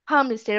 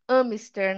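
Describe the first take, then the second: First: "Hamster" with a breathed H at the start; H sounded. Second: "hamster" as "amster", without H; wrong, H dropped. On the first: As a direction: open "Hamster" on an audible H. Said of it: "esse H a gente tá pronunciando". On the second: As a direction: start "hamster" straight on the vowel. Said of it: "Eu não falaria hamster". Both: Shown as a demonstration.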